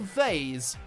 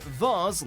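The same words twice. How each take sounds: First: The vowel sounds like the one in haze. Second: The vowel sounds like the one in Mars. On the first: "like haze" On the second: "like Mars"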